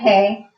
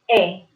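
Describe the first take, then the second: First: The word begins with an h sound. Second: The word begins with a plain vowel sound. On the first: "this is hair, right?" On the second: "You will not say the letter H. So it will be just E"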